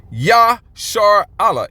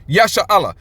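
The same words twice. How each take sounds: First: Yah, Shar, Allah said as three separate words; syllable by syllable. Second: Yasha Allah said as one joined phrase; run together. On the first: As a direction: split Yah, Shar, Allah apart with small breaks. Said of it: "Israel is three Hebrew words". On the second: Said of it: "It's a phrase". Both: Shown as a demonstration.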